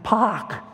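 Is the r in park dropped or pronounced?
dropped. It is said in a Boston accent without r.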